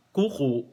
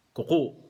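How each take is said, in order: First: "kuko" with a long first U and a glottal stop at the end; long first vowel. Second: "kuko" with a short first U and a glottal stop at the end; quick first syllable of "kuko", catch the last U; short first vowel. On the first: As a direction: stretch the first U of "kuko", stop the last one. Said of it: "yung first syllable, long vowel... last syllable, merong glottal stop". ("kuko": mahabang unang U, may glottal stop sa dulo)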